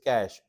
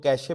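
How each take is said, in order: First: The word has one syllable, like 'cash'. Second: The word has two syllables, ending in 'ay'. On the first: The speaker calls it right. "It is कैश" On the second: The speaker calls it wrong. "अक्सर लोग कैशे pronounce करते हैं"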